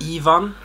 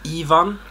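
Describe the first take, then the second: First: The name is said the Swedish way. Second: The name is said the Swedish way.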